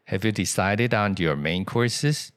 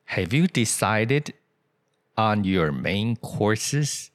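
First: The words run together in connected speech. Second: Each word is said separately and clearly. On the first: The speaker calls it right. "所以你看啊" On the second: The speaker calls it wrong. "这样子念你当然懂，可是老外不是这样念"

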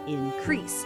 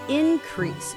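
First: It has the verb's stress placement. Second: It has the noun's stress placement. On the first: It means to grow larger. "动词的时候我们念increase" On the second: It names a growth in amount. "如果是名词……那就是increase"

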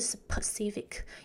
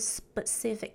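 First: The p is a strong p with a puff. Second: The p sounds like a soft b, without a puff. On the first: The speaker calls it wrong. "而不是specific" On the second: The speaker calls it right. "我们就把它发成B 的音，就会变成是specific"

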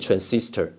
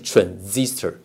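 First: The middle consonant is an s sound. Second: The middle consonant is a z sound. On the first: The speaker calls it wrong. "不要去念transistor" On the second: The speaker calls it right. "那个s 念z 啊"

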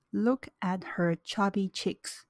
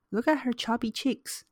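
First: It is spoken slowly and deliberately. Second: It is spoken at a normal conversational speed. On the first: "那接下来是慢速" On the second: "我会先念正常语速"

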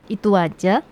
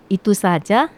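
First: The s sound in saja is left out. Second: The s sound in saja is clearly pronounced.

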